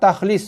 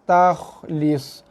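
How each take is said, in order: First: The kh sound is hard and cut short. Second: The kh sound is soft and drawn out. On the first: The speaker calls it wrong. "Kesalahan yang kedua ialah membunyikan kha tu dengan bunyi keras" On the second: The speaker calls it right. "lepas suara. ... panjangkan sikit, ekorkan sikit"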